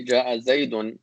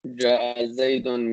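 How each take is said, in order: First: Said in the usual way. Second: Ja'a Zaydun said slowly, word by word; slow repeat. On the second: Shown as a demonstration. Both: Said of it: "when we say".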